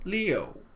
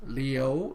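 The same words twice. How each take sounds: First: The pitch falls on the syllable. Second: The pitch rises on the syllable. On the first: It means the number six. "L I U with the fourth tone" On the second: It means to stay. "the rising tone"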